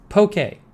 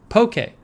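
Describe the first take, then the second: No difference in how they are said.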